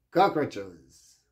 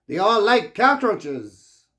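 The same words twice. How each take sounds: First: "Cockroaches" dropped lower, falling and flat; flat repeat. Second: "cockroaches" drawn out slowly, higher and louder; stress on cockroaches. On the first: Repeating the word to viewers, low and deadpan. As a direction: say "Cockroaches" again lower, as a dry echo. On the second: Warning viewers that scammers won't leave, slow and emphatic. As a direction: stretch out "like cockroaches" slowly and hit it hard. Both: Real, not acted.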